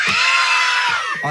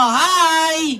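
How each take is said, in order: First: Much higher, loud shouted hi; louder hi. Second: Said in the usual way. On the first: Pretend. Puppet told to be louder, shouting hi to the kids. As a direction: belt the greeting out as loud as you can. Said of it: "Lakasan nyo". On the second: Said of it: "Sabihin nyo".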